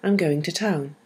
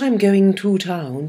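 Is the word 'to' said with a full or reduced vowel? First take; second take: reduced; full. First: The word 'to' is reduced to 'ta'. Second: The word 'to' has a full vowel. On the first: The speaker calls it right. "And the to becomes ta" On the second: The speaker calls it wrong.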